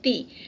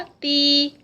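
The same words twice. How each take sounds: First: The vowel is short, not lengthened. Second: The vowel is held for two counts. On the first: "उसको इतना लंबा हमने हरका को किया था" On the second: "टू counts का स्ट्रेच"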